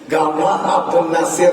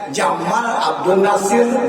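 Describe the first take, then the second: First: The first word begins with a g sound. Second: The first word begins with a j sound. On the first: This is how Arabs actually read it. "Jim itu dibacanya anu gaya" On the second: This follows the written letter. "Misalnya Jamal Abdul Nasir"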